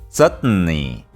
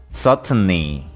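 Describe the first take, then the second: No difference in how they are said.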